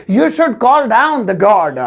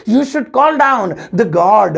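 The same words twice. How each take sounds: First: Slow careful English. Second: Slow second take, weight on call; slow careful English repeat. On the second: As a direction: repeat it slowly, leaning on call. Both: Shown as a demonstration. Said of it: "तो English होगी".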